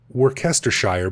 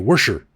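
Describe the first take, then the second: First: All the syllables are pronounced in full. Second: The syllables are squished together and shortened. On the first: "you pronounce it Wor- Worcestershire" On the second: "the Brits probably say Worcestershire"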